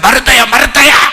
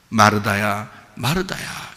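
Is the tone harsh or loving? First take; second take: harsh; loving. First: It is said in a harsh, scolding tone. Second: It is said in a warm, loving tone.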